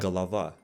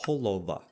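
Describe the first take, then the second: First: The unstressed o's sound like ah. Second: The unstressed o's sound like o. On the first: This is the Russian pronunciation. "unstressed O's make an ah" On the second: This is the Ukrainian pronunciation. "in Ukrainian would sound like"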